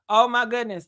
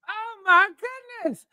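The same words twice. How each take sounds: First: Said in the usual way. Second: Mock anguish. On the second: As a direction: wail it in hammed-up distress. Comic flashback, high cry.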